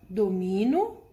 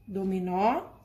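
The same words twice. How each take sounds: First: Domino with the stress on the middle syllable MI, said slowly; teacher contrasts the unaccented word with its accented twin. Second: Dominó with the stress on the final open ó; teacher contrasts the accented word with its unaccented twin; stress on the last syllable. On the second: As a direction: land hard on the end of dominó. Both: Shown as a demonstration. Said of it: "Por conta do acento aqui, elas mudam o significado".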